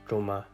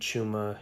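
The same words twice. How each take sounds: First: The first consonant is further back. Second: The first consonant is an English ch. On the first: The speaker calls it right. "farther back in the mouth" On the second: The speaker calls it wrong.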